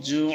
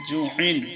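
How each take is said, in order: First: The word stops short with no ending. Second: The word ends with an added -in sound. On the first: "কিন্তু আমরা পড়ব জু"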